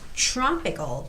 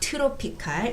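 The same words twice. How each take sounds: First: The tr blends into a ch-like sound. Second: The t and r are said separately. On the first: The speaker calls it right. "It's tropical" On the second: The speaker calls it wrong. "it's not tropical"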